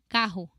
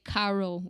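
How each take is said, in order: First: The R sounds unlike an English R. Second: The R sounds like an English R. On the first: The speaker calls it right. "We say carro" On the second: The speaker calls it wrong. "We don't say carro"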